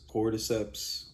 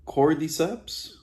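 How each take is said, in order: First: Said in the usual way. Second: "cordyceps" tried out slowly, high and rising; unsure pronunciation. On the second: Shown as a demonstration. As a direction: sound out "cordyceps" hesitantly with a rising question. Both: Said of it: "I don't know how to say this word".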